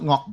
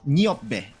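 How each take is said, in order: First: The first syllable ends with a K sound. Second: The first syllable ends with a P sound. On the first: The speaker calls it wrong. "It's not Ngokbe" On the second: The speaker calls it right. "It is pronounced Niop"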